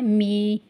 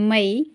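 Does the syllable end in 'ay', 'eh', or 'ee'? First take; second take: ee; ay. First: The vowel is a long 'ee' sound. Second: The vowel glides as an 'ay' diphthong. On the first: The speaker calls it wrong. "कुछ लोग पढ़ते हैं मी ... ऐसा पढ़ना जो है ये गलत होगा" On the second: The speaker calls it right. "इनको पढ़ना है मई"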